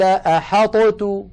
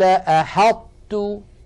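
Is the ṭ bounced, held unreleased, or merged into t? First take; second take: bounced; held unreleased. First: The ṭ is released with an echoing bounce. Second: The ṭ is held emphatic, then opens on t. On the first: The speaker calls it wrong. "ولو أظهرنا لقلقلنا الطاء وقلنا قال أحطت" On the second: The speaker calls it right. "نطبق المخرج على طاء من غير قلقلة ثم نفتح على تاء، هكذا"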